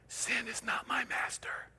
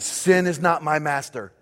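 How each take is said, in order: First: It is spoken in a whisper. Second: It is spoken in a normal full voice.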